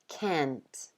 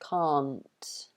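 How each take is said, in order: First: American accent with an open, flatter front vowel. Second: British accent with a long back 'ah' vowel. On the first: "in American English, they tend to open their mouths and say like" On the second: "in the U K, this word is R. So we use the long A vowel"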